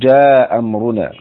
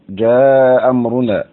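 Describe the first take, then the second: First: The long vowel is held briefly, two counts. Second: The long vowel is held longer, four counts. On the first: "نقدم القصر على التوسط" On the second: "نقدم القصر على التوسط"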